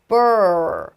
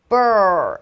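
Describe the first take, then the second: The two takes are said the same way.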